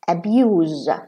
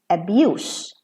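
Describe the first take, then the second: First: The final sound is a z. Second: The final sound is an s. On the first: It is used as a verb. "like the father is abusing his child" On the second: It is used as a noun. "abuse as a noun"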